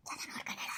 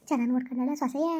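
First: Very soft, fully whispered question. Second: Said in the usual way. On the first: Acted. Asking after the daughter-in-law's care, whispered. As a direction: whisper it under your breath. Line whispered, then said aloud.

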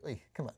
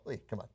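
First: Mild mock grumble. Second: A quiet mock grumble, soft and under the breath; low private hey come on under your breath; muttered to yourself. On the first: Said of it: "some people are gonna be like". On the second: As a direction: grumble it privately, barely voiced. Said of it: "to yourself".

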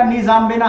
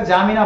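First: "निजाम्बिना" with the opening N sound voiced; "निजाम्बिना" with no silent N at the front; first letters sounded. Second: "जामिना" starting straight on the J sound; "जामिना" with the opening letters left silent. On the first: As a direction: say "निजाम्बिना" starting on a clear "ni" before "jam". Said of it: "अब इसको ऐसे पढ़ेंगे, एन silent हो जाएगा". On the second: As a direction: say "जामिना" with no N or D before the J. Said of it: "अब इसको ऐसे पढ़ेंगे, एन साइलेंट हो जाएगा, डी भी साइलेंट हो जाएगा". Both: Shown as a demonstration.

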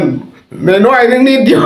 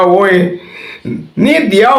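First: Much higher, very slow, laughing almost to tears; laughing, drawn out. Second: Much higher, laughing through it; laughing reply. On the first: Host repeating his joke answer to listeners, helpless laughter. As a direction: stretch it out while cracking up. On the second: Host retelling his joke answer to a scammer, laughing. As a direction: squeal it out between laughs. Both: Retold or imitated.

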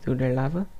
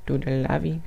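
First: Said in the usual way. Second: "lavi" for lava, ending in an ee sound; softly twist lava into "lavi"; playful mispronunciation. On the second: Pretend.

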